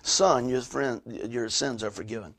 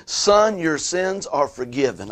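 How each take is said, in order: First: Hushed, unhurried pronouncement of forgiveness; letting it soak in. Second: Jesus forgiving, firm raised opening, settling evenly; a measured pronouncement of forgiveness; Jesus's pronouncement. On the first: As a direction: let each phrase sink in, dropping away quietly. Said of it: "let that soak in". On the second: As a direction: proclaim it slowly as a preacher quoting Jesus. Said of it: "Jesus told the paralytic". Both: Retold or imitated.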